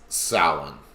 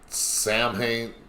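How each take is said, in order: First: The word is said in the speaker's preferred way. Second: The word is said in the commonly heard way. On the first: The speaker calls it right. "It's Samhain" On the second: The speaker calls it wrong. "a lot of people pronounce that Samhain. That's the wrong pronunciation"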